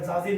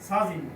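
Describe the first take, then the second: First: The word begins with a j sound. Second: The word begins with an s sound. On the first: The speaker calls it wrong. "এইভাবে এটা জাজিন না" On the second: The speaker calls it right. "এটা হবে সাজিন"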